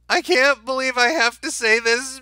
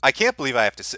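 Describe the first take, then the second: First: It is read in a put-on voice. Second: It is read in his normal voice.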